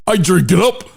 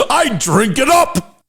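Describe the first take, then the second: First: Said in the usual way. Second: Laughing. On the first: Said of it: "Let me try that again". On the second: Real, not acted. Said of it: "I can't stop laughing".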